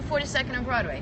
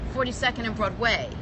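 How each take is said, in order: First: Broadway is said plainly, without extra emphasis. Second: Broadway is said with marked, unusual emphasis. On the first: This is the ordinary way to say it. The speaker calls it right. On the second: Someone is trying to sound fancy. The speaker calls it wrong. "Why would you think to even accentuate Broadway?"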